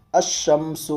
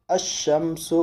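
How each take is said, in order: First: الشمس said ash-shams, the lam silent and the shin doubled; الشمس with the lam assimilated into a doubled sh; Arabic pronunciation demo. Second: الشمس repeated as ash-shams, no lam, doubled shin; الشمس as ash-shams, lam swallowed into the shin; Arabic pronunciation demo. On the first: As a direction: sound the shin twice in الشمس and drop the lam. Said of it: "تو پڑھیں گے". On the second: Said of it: "یعنی لام کو یہاں نہیں پڑھیں گے". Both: Shown as a demonstration.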